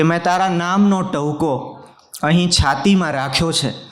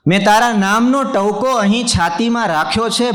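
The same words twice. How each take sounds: First: Said in the usual way. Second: Higher, ringing mushaira repeat of the line; poetry recitation. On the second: Acted. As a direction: lift the verse up to the audience. Repeats the couplet line for effect.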